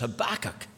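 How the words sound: The name is said the American way. The speaker calls it wrong. "For our visitors online from the United States, they might know it better as"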